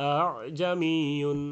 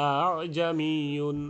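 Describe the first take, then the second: Both takes have the same delivery.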